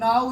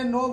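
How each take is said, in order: First: The vowel sounds like the one in 'now'. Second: The vowel sounds like the one in 'no'. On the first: The speaker calls it wrong. "नाउ नहीं बोलते" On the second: The speaker calls it right. "नो बोलते"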